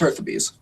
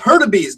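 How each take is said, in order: First: The middle consonant is a TH sound. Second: The middle consonant is a D sound. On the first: This is the true form of the family name. The speaker calls it right. "it's pronounced Hurtubise. ... you actually pronounce the T H" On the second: This is the Americanized form he grew up hearing. The speaker calls it wrong. "You don't just make it a D"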